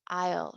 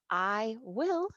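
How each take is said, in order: First: It is said as one short contracted syllable. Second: It is said as two separate full words. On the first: "use I'll" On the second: "Instead of I will"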